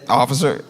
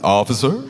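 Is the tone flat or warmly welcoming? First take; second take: flat; welcoming. First: It is said flatly, as a plain greeting. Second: It is said warmly, like welcoming someone home.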